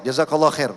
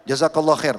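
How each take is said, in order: No difference in how they are said.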